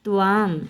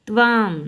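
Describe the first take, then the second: No difference in how they are said.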